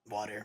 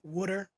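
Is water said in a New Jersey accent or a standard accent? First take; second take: standard; New Jersey. First: It is said in a standard accent. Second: It is said in a New Jersey accent.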